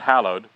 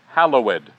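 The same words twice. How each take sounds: First: The ending is silent, giving two syllables. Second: The ending is pronounced, giving three syllables. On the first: The speaker calls it wrong. "Not hallowed" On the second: The speaker calls it right. "Because the poetry's better"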